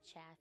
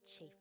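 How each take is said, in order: First: The vowel is short, as in laugh. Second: The vowel is long, as in safe. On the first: It names the husks separated from wheat. The speaker calls it wrong. "to me chaff is that stuff when you're step processing wheat" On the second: It names damage from things rubbing together. The speaker calls it right. "So I'm gonna say chafe, like chafing stuff rubbing together"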